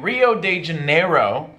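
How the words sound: It is said with a foreigner's accent.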